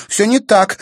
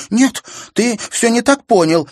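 First: Loud, high, stress on не; heated denial. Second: Very high, loud, stress on так; desperate denial. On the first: Sister insisting to brother, heated. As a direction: insist it's not so. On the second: Sister desperately denying to brother. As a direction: plead he misunderstood. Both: A narrator's reading.

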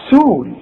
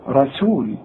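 First: سول said alone with a thin س; isolated sin. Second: رسول with a thin, clear س; clear sin. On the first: Teacher drilling the syllable alone. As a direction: pull out the syllable سول with a light seen. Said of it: "شوف". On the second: Teacher showing a clean seen sound. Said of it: "طلعها لي سين". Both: Shown as a demonstration.

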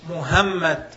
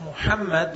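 First: "Muhammad" with a plain English h, not the Arabic ħ; wrong plain h. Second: "Muhammad" with the throaty Arabic ħ in the middle. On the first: Teacher demonstrating the mistaken pronunciation, plain h. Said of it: "if he pronounces the name of the Prophet". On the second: Teacher showing the correct form, throaty ħ. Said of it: "instead of Muhammad with the ha". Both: Shown as a demonstration.

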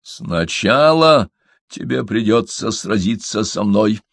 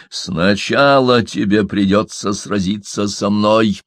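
First: Icy, slow, deliberate challenge; a chilling calm threat; cold rasping evil emperor. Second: Same flat icy repeat, slower; cold rasping evil emperor. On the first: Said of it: "ледяным голосом". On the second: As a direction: repeat it without any change. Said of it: "не меняя выражения, повторил горбун". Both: A narrator's reading.

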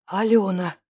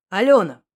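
First: Алёна breathed out on a sigh. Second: Said in the usual way. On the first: Acted. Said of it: "выдохнул я". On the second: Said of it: "Алёна! выдохнул я".

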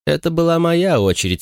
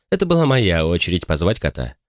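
First: «моя» lifted high and hit hard; stress on моя. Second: «это» leaned on at the start, «моя» even; stress on это. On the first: Retold or imitated. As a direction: lean on «моя». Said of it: "сказала ты". (с ударением на «моя») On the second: A narrator's reading. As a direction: correct her by hitting «это». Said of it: "На самом деле". (с ударением на «это»)

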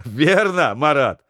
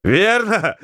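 First: Laughing through the words. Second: Excited shout. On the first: Sailor backing up the joke, laughing. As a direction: chime in with a laugh. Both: Acted. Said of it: "подхватил со смехом Матвеев".

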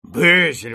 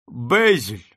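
First: A loud, reproachful cry of a name; exclaimed. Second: Solemn. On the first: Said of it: "воскликнул лорд". (громкий укоризненный возглас) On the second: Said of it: "торжественно промолвил лорд Бомонт". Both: A narrator's reading.

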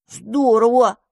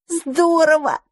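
First: Grudging, envious "Здорово"; mouse-foe envious of the dandelion's luck. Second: High, bright burst of delight; dandelion thrilled by the mouse's story. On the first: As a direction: say "Здорово" with a pang of envy. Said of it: "позавидовал мышевраг". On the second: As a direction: gasp it out in admiration. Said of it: "восхитился одуванчик". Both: Acted.

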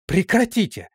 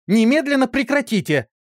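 First: High, sharp order Прекратите!; woman breaking up a brawl, sharp order; commanding shout. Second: High, loud stress on Немедленно; woman breaking up a brawl, louder command; louder shout. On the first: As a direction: stop the fight with one word. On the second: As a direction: bellow the order to stop the fight now. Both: A narrator's reading. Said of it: "закричала Исидора".

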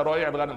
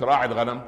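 First: "رويع الغنم" with the belittling diminutive, pitched high; diminutive form stressed. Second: Said in the usual way. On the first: Shown as a demonstration. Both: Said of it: "مش راعي الغنم".

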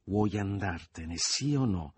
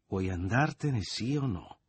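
First: Slow, insistent demand, rising at the end; raised voice. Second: Impatient ultimatum. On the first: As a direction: repeat the ultimatum, drawing it out. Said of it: "ripeté Leo con voce più alta". (a voce più alta, scandendo) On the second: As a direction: press him for an answer. First take of repeated ultimatum. (ultimatum spazientito) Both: A narrator's reading.

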